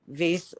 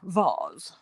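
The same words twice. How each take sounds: First: The vowel rhymes with the word face. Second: The vowel is said in a fancy way. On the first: "vase like face" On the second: "I say a fancy vase"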